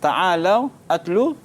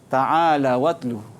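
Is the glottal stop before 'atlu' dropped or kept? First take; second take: kept; dropped. First: A glottal stop separates the two words. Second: The vowel moves onto the w, no glottal stop.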